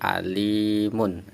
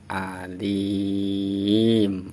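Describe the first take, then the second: First: The word ends with a full vowel-plus-n ending. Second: The word stops on a closed final m. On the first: The reader continues without stopping. "kalau tidak tidak ada wakof berarti alimun" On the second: The reader stops at the end of the verse. "Anggap saja di sini ada wakof, berarti huruf terakhirnya mati"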